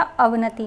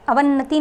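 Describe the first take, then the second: First: अवनति with a single short न, ə-və-nə-ti; correct form. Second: अवन्नति with a doubled न, ə-vən-nə-ti; wrong form अवन्नति, double n held. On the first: Teacher correcting students, single n in अवनति. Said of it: "अवनति होता है". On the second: Teacher showing students the mistake, doubled n in अवन्नति. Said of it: "अवन्नति नहीं होता". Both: Shown as a demonstration.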